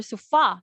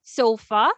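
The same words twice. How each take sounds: First: "sofa" as so-FA, weight on the end; wrong-syllable stress. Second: "Sofa" with a louder SO; first-syllable stress. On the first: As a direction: lean on the second syllable of "sofa". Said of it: "Since we don't say sofa". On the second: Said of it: "the stress there is on the first syllable". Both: Shown as a demonstration.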